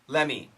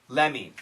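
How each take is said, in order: Both takes have the same delivery.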